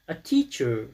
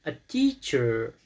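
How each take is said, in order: First: Said in the usual way. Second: Teacher with TEA stressed, slow and drawn out; stress on first syllable. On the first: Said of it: "در کجا هست". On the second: Shown as a demonstration. Teacher explaining stress to pupils, TEA stressed. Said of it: "در اولش هست".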